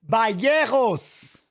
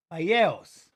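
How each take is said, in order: First: Vallejos drawn out slowly as ba-YEH-hos, Spanish j as a breathy h; careful Spanish try. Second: Said in the usual way. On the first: Shown as a demonstration. Streamer trying the fighter's name the Spanish way, slow careful Vallejos as ba-yeh-hos. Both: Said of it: "That's how I would say it".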